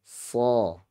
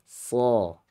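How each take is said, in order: No difference in how they are said.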